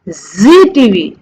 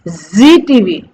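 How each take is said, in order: No difference in how they are said.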